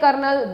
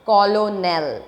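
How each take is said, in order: First: It sounds like 'kernel', with an r sound. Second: It sounds like 'col-o-nel', following the letters. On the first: This is how the word is really pronounced. "हम बोलते हैं कर्नल" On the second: This is a memory aid for the spelling. "while you are remembering the spelling you must have to keep on your mind that it is colonel"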